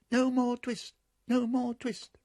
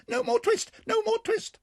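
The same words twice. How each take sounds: First: High sung chant of No more twist; mice singing it. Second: Shrill very high squeaky shout; twittering mouse shout. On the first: Mice singing behind the shutters to the cat, high and sung. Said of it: "little mouse voices singing". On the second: Mice shouting at the cat together, very high and loud. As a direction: shout it all at once like tiny mice. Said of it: "began to shout at once in little twittering voices". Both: Acted.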